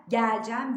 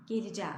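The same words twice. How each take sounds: First: Geleceğim with open e, gælcæm; wrong form. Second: Closed e, geleceğim as gelicem; correct form. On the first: Teacher contrasts the wrong open e. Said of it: "değil". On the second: Teacher gives the correct form, gelicem. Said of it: "diye çıkarıyoruz". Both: Shown as a demonstration.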